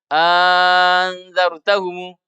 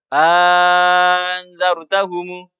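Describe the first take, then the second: No difference in how they are said.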